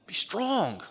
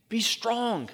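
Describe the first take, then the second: First: "Be strong" lifted high, pressing on "strong"; preacher urging "Be strong" with raised pitch; emphatic. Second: "Be strong" pitched even higher, hitting "Be" hard; preacher pressing "Be strong" harder the second time; more emphatic. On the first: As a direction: say "Be strong" as a firm exhortation, pitched up. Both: Shown as a demonstration. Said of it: "emphatically, he says the same thing".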